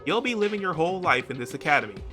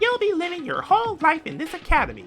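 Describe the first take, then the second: First: It is said in a normal narrating voice. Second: It is said in Monokuma's put-on character voice.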